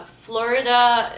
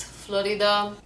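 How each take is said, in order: First: Slow, louder American Florida; American accent. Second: Slow Lebanese Florida; Lebanese accent. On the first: Announcing it to viewers, American accent. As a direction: draw out Florida in American English. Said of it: "How do we say states". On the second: Showing how Lebanon says it, Lebanese accent. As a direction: say Florida with a tapped R, slowly. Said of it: "it's Florida". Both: Shown as a demonstration.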